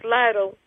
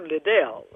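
First: The name is pronounced like Lytle. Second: The name is pronounced like Liddell. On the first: Someone unfamiliar with the name misread it. The speaker calls it wrong. "was trying to do the pronunciation, which was inaccurate" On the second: This is how the name's owner says it. The speaker calls it right. "when I'm Liddell"

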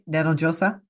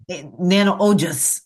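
First: The second word is pronounced like 'josa'. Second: The second word is pronounced like 'ojas'. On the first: The speaker calls it wrong. "Did I say it right?" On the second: The speaker calls it right.

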